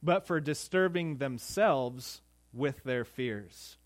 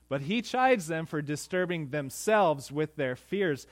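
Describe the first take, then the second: First: "fears" read slowly as a quotation; slow quoted reading. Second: "chides" hit hard in the restatement; stress on chides. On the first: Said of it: "Matthew Henry writes this". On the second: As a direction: punch "chides" to drive the point home. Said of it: "You get that?". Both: Shown as a demonstration.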